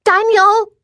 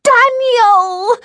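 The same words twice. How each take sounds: First: Put-on high-pitched child's yell; piercing little-girl call; little girl's yell. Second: Drawn-out, very high shriek; piercing child's scream, stretched out; little girl's shriek. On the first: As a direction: yell for your big brother. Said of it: "she yelled". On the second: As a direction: shriek your brother's name. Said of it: "went from yell right to shriek". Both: A narrator's reading.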